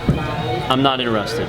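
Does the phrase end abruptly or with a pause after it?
pause. A pause follows the phrase, waiting for a reply. They are waiting for a rebuttal. "This is what they're doing. They're pausing before they hang up"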